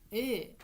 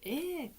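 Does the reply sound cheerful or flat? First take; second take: flat; cheerful. First: It is said in a flat, dull way. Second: It is said in a bright, cheerful way. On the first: The speaker calls it wrong. "ええじゃなくて" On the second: The speaker calls it right. "ちょっと明るくね"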